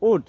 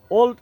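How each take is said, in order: First: "উড" with a silent l; correct "would" pronunciation. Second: Put-on "ওল্ড" pronounced like English "old"; mispronounced "would". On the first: Teacher gives learners the correct pronunciation, "উড" without an l. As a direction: say "উড" as one short syllable, no l before the d. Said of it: "এটির সঠিক উচ্চারণ হবে". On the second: Teacher shows learners the common mistake, mispronouncing "ওল্ড" like "old". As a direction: say "ওল্ড" with an l sounded before the d. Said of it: "ওল্ড উচ্চারণটি সম্পূর্ণই ভুল". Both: Shown as a demonstration.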